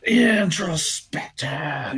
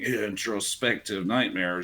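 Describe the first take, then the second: First: It is said with aggression and emotion. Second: It is said flatly, without emotion.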